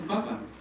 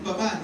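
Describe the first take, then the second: First: The stress is on the first syllable. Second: The stress is on the last syllable. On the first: It means potato. The speaker calls it wrong. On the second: It means father. The speaker calls it right.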